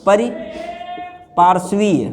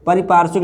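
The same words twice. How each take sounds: First: परिपार्श्वीय slowly, ending in long -veey; correct form. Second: परिपार्श्विक ending in short -vik; wrong form. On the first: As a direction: split pari, then paarshveey in परिपार्श्वीय. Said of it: "ये होगा". (परिपार्श्वीय धीरे, अंत में वीय लंबा) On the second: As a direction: close परिपार्श्विक on a k. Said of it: "ये नहीं होता है". (परिपार्श्विक का अंत छोटे विक पर) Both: Shown as a demonstration.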